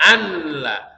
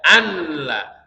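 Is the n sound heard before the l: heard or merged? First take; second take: heard; heard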